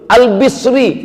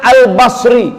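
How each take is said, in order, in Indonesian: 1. Vokal setelah B adalah i. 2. Vokal setelah B adalah a.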